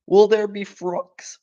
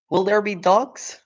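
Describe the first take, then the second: First: High, slow little cub voice; wide-eyed cub asking; frightened little fox; small fox voice. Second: High little cub voice, corrected word; frightened little fox; small fox voice. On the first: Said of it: "asked one of the small foxes". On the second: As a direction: cub asking again about dogs. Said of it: "he said". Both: Acted.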